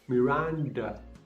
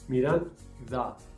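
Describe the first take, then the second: First: The D is made with the tongue raised to the palate. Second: The D is made with the tongue between the teeth. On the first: The speaker calls it wrong. "las personas que hablan inglés, cuando pronuncian la D, la lengua sube arriba del paladar" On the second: The speaker calls it right. "Cuando pronunciamos la D, la lengua quiere salir fuera de la boca"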